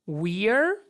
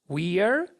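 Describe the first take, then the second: The two takes are said the same way.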